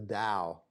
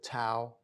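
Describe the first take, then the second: First: The word begins with a D sound. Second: The word begins with a T sound.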